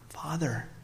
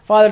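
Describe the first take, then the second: First: It is said in a hushed, reverent tone. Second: It is said in a casual, offhand tone. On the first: The one praying stands in awe of God. The speaker calls it right. "There's just a reverence" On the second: The one praying treats God too familiarly. The speaker calls it wrong. "it's not like"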